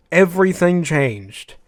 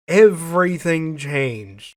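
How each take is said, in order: Both takes have the same delivery.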